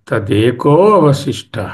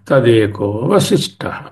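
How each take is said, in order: First: The 'a' before vashishtah is fully pronounced. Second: The 'a' before vashishtah is barely pronounced. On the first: "వశిష్టః కాదు, అవశిష్టః" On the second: "కలిపి చదివినప్పుడు ఆ విడిగా pronounce చేయక్కర్లా, ఉండి ఉండనట్టు పలక"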